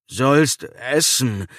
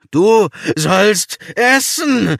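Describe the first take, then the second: First: Slow dragging words. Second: Loud, slow, high bellow. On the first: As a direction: drag the words out slowly. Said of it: "Es klang nicht mehr ganz so schleppend". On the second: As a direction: roar it out slowly. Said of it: "brüllte er". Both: A narrator's reading.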